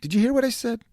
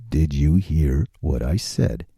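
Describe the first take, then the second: First: Said in the usual way. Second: Much lower and slow, a deep put-on voice; low slow mock-serious boom; deep slow repeat. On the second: Shown as a demonstration. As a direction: drop into a deep, slow ominous voice.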